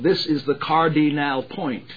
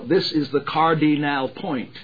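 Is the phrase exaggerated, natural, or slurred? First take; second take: exaggerated; exaggerated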